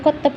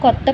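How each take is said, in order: The two takes are said the same way.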